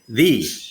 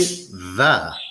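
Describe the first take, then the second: First: The vowel is a long E sound. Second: The vowel is a short schwa sound. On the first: The next word starts with a vowel. "If that sound is a vowel, you say the. ... that long E sound" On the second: The next word starts with a consonant. "If that sound is a consonant, you say the"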